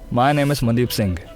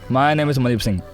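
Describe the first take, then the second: First: The last word fades out naturally. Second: The last word is abruptly cut off. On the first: The speaker calls it right. "Release ऐसा ही normal है" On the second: The speaker calls it wrong. "अगर पूरा कम कर दिया ... ऐसा मतलब था बंद होगा"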